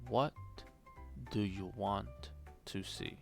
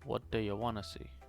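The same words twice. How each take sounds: First: Each word is said separately with small gaps. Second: The words run together quickly without gaps.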